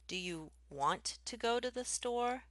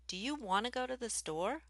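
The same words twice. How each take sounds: First: Each word is said fully and clearly. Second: Common words are reduced and mushed together. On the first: "I might say" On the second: "I'm more likely to say"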